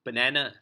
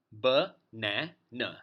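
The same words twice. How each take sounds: First: Said in the usual way. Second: "Banana" slowly broken into ba, na, na; syllable by syllable. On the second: Shown as a demonstration. Teacher counting sounds in banana, syllable by syllable. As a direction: sound out "Banana" in three slow, separate beats. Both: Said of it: "three sounds when you pronounce it".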